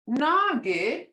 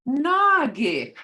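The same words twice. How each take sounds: First: Nagi with a long rising tone; tone demo. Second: Nagi, louder with a long falling tone; tone demo. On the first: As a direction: let Nagi rise slowly. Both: Shown as a demonstration. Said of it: "Hear the tone".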